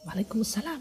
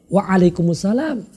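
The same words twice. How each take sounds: First: It is said in a soft, quiet voice. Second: It is said in a loud, clear voice. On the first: The reply only matches a quiet greeting. "minimal adalah juga dengan suara lirih" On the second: The reply makes sure the greeter hears it. "lebih baik manakala kita bersuara keras sehingga sampai suara kita kepadanya"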